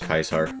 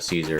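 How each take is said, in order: First: It begins with a hard K sound. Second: It begins with a soft S sound.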